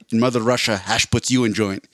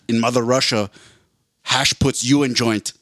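First: It is spoken without any Russian accent. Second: It is spoken with a put-on Russian accent.

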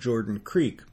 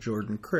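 First: Creek is said the standard way. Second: Creek is said the rural Iowa way.

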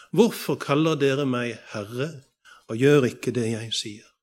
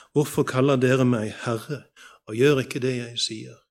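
No difference in how they are said.

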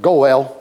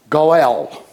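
First: The word is pronounced the English way. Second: The word is pronounced the Hebrew way. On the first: "we would say it in English" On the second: "The Hebrew word is goel"

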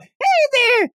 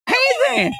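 First: It is said in a Pikachu voice. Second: It is said in an annoying Towley voice.

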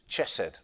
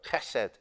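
First: It starts with a 'ch' sound as in cheese. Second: It starts with a harsh sound from the throat. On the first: The speaker calls it wrong. "some people pronounce the ch like cheese. Chesed doesn't work" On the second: The speaker calls it right. "It's a hard sound. It's in the back of the throat"

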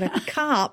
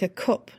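First: The word is said in a non-Northern accent. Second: The word is said in a Northern English accent. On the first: The speaker calls it wrong. "not a cup" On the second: The speaker calls it right. "Tell me the Northern accent"

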